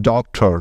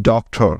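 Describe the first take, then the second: No difference in how they are said.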